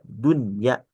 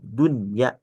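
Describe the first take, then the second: First: The n sound is pronounced clearly and distinctly. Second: The same.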